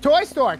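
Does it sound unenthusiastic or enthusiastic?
enthusiastic. It is said eagerly, with enthusiasm.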